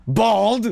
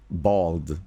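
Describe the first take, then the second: First: Sudden high, loud cry of BALD; exclaimed. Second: Said in the usual way. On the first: Acted. Echoing word from character.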